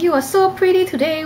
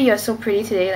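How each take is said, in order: First: It is said with a Cantonese-style melody. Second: It is said in a plain English accent. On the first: "the tone kind of carries over" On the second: "if I were to say"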